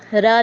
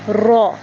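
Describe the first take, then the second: First: The letter is said thin, with an open vowel. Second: The letter is said thick, with a rounded vowel. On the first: The speaker calls it wrong. "रा नहीं कहना" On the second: The speaker calls it right. "रा को हमने मोटा भी पढ़ना है"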